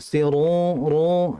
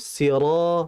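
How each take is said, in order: First: The long vowel is pushed through the nose. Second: The long vowel comes out through the mouth. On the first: The speaker calls it wrong. "nah jangan di hidung" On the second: The speaker calls it right. "Yang betul rongga mulut"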